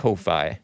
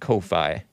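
First: It sounds different from the word coffee. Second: It sounds different from the word coffee.

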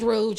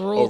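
First: The name ends with a soft zh sound. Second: The name ends with a hard g sound. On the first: The speaker calls it right. "It's Rouge. It's like the makeup" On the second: The speaker calls it wrong. "We've been saying it wrong as hell"

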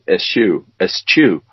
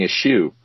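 First: The middle consonants sound like 's-ch'. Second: The middle consonants sound like 'sh'. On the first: The speaker calls it right. "I don't think that's right. I think it's eschew" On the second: The speaker calls it wrong. "She used the English pronunciation of S-C-H"

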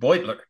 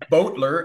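First: The first syllable does not sound like 'Beau'. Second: The first syllable sounds like 'Beau'. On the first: The speaker calls it right. "his name is pronounced Beutler" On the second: The speaker calls it wrong. "not Beutler, as in Beauregard"

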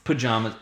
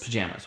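First: The second syllable has a broad ah vowel. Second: The second syllable has the vowel of jam. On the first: "That's a Northeastern thing" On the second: "Pajamas with a jam"

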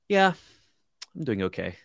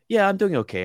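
First: The tone is heavy and weighed down. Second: The tone is light and casual.

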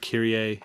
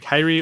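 First: The name has its church Latin pronunciation. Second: The name has its ordinary everyday pronunciation. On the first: This is how it is said at a Latin mass. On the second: This is the usual way to say the name. "It's Kyrie"

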